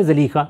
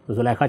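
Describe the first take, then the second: First: زلیخا said "zalikha", long ee in the middle; original pronunciation. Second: زلیخا said "zulaikha", u then ai; popular pronunciation. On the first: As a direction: say زلیخا with an ee, "zaleekha". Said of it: "اصل تلفظ کیا ہے؟". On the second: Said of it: "لوگوں کی زبانوں پر". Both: Shown as a demonstration.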